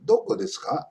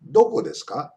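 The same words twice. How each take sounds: First: "Doko desu ka" starting high, then falling; falling intonation. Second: "doko desu ka" lifting on "ka"; rising intonation. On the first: Teacher modelling the follow-up, "Doko desu ka" with falling tune. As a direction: drop the pitch through "Doko desu ka". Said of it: "a falling intonation". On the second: Teacher modelling a question, "doko desu ka" rising at the end. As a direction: ask it, ending "doko desu ka" upward. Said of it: "interrogative questions end with a rising intonation". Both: Shown as a demonstration.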